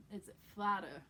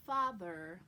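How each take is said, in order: First: "father" as "fadda", hard d and no r; New York "father" with the th hardened to d. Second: Said in the usual way. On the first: Shown as a demonstration. Coach contrasts it with standard speech, New York "father". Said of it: "they say mudder". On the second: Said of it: "instead of saying mother with a th".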